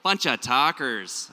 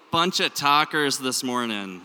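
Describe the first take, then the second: First: Slow, drawn-out Minnesota vowels; exaggerated Minnesota accent. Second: Everyday Minnesota accent, loud; natural Minnesota vowels, projected to the room. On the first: Shown as a demonstration. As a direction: lean hard into the Minnesota accent. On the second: Real, not acted. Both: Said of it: "My Minnesota accent really starts coming out".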